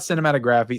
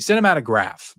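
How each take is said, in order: First: The word ends with an extra final 'ee' syllable. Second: The word ends on the 'graph' syllable. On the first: The speaker calls it wrong. "It's not cinematography" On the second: The speaker calls it right. "That's what it is"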